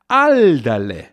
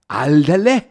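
First: The pitch falls from high to low, warning. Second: It sounds like a question, followed by huh. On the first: Watch out. "also von oben nach unten betont, heißt, pass auf" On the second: Can you imagine that? "Das Fragezeichen wird hier oft noch verbal verstärkt durch ein Hä"

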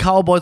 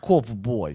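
First: The word is said in a plain, ordinary way. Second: The word is said with a Russian accent. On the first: "nicht Cowboy" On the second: "sondern er sagt Cowboy"

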